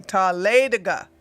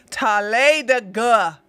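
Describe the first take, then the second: First: "Talladega" in one smooth run, leaning on LAY; the better pronunciation. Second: Slow, louder "Talladega", every syllable stretched; "Talladega" spread out into separate long syllables; drawn-out pronunciation. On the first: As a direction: say "Talladega" connected, stress on the third-last syllable. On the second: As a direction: sound out "Talladega" heavily, syllable by syllable. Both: Shown as a demonstration. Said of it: "better way of saying Talladega".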